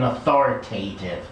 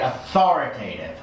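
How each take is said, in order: First: The stress falls away from the second syllable. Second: The stress falls on the second syllable. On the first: The speaker calls it wrong. "You're putting the stress kind of in the wrong place" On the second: The speaker calls it right. "you want the stress on the thar part"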